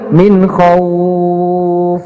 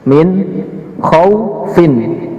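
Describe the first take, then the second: First: The vowel in khauf is held long. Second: The vowel in khauf is kept short. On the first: The reading stops on this word. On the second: The reading continues without stopping.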